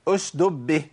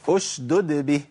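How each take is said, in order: First: One d sound is dropped entirely. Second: Both d sounds are clearly pronounced. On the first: The speaker calls it wrong. "جاب الساكنة وضيع المتحركة، ما ينفعش" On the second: The speaker calls it right. "بس كده لازم ابين الدالين"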